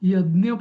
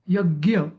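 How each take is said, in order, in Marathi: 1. मधला समूह dny सारखा वाटतो. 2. मधला समूह gy सारखा वाटतो. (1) "मराठीत जसं म्हणतात वाय ए डी एन वाय ए, तसं पण नाही" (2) "नॉर्थ इंडियन्स म्हणतात ... जी वाय ए, तसं पण नाही"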